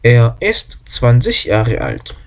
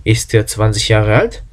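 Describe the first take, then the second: First: Slow, falling on the end; statement tune. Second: Slow, with a rise on alt; question tune. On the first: Teacher models the plain statement before the question. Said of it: "주어와 동사의 위치만 바뀌면". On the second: Teacher models turning the statement into a question. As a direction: lift alt into a clear question. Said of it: "물음표를 붙이면". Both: Shown as a demonstration.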